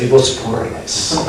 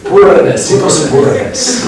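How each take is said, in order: First: Said in the usual way. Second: Poorness said the Spanish way, high and loud; playful Spanish-accented poorness; jokey Spanish-accent take on poorness; mock Spanish accent. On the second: Shown as a demonstration. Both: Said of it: "When I say this Spanish accent".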